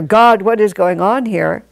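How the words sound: It is said in an angry, demanding tone. The speaker is rebelling against God. "one is the revolt"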